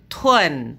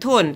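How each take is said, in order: First: The ending has an 'e' glide, like 'uen'. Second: The ending is a plain 'un' sound. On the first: The speaker calls it right. "tapi tun" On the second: The speaker calls it wrong. "kalian tidak membacanya dengan tun"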